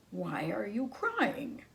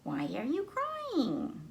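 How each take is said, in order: First: Slow, lightly voiced wolf; a hint of a concerned wolf, slowly; mild wolf voice; wolf asking. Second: High, slow tiny bee voice; high little bee voice; little bee asking. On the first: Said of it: "asked the wolf". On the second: Acted. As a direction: ask like a small curious bee. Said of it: "the bee asked the wolf".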